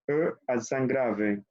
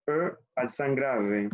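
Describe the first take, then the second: First: E accent grave slowly, French sounds; repetición lenta; slow repetition. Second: E accent grave slowly for students to repeat; repetición lenta; slow repetition. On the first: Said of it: "sería E accent grave". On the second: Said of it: "Bueno, repetimos". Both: Shown as a demonstration.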